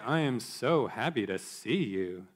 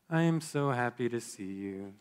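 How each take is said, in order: First: The voice is exaggerated and mocking. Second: The voice is quiet, flat and low. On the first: The speaker means the opposite of the words. "with an exaggerated intonation and rolled eyes" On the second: The speaker is not really happy and seems down. "quiet monotone, your eyes looking away"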